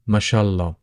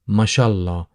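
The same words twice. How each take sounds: First: The phrase is said softened and run together. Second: The phrase is said softened and run together.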